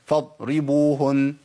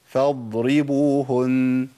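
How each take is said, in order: First: فاضربوهن with the ض clipped short like a doubled stop; فاضربوهن with the ض cut off and no flow; stopped dad error. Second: فاضربوهن with the ض flowing for its natural length; correct Arabic dad. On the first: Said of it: "طب الخطأ فين". (الضاد في فاضربوهن مقطوعة كأنها مشددة) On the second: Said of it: "الزمن الطبيعي هو كده". (الضاد في فاضربوهن بزمن جريان طبيعي) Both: Shown as a demonstration.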